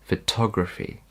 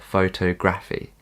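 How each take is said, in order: First: The stress is on the syllable 'tog'. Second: The stress is not on the syllable 'tog'. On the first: The speaker calls it right. "the emphasis is on T O G" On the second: The speaker calls it wrong.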